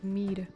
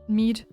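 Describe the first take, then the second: First: The word ends with a D sound. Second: The word ends with a hard T sound. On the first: The speaker calls it right. "Instead of the D" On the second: The speaker calls it wrong. "I always say meat with like hard T"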